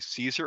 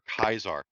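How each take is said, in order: First: The name begins with an S sound. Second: The name begins with a K sound. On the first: This is the common everyday form. "everyone just says Caesar" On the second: This is the original form. "Kaiser's the correct way to say it"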